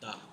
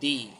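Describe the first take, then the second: First: The word ends in a short 'uh' sound. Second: The word ends in a long 'ee' sound. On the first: It comes before a word starting with a consonant. "Consonant word এর আগে দা তাহলে এটা হবে দা" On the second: It comes before a word starting with a vowel. "Vowel word এর আগে টিএইচই এটা দি"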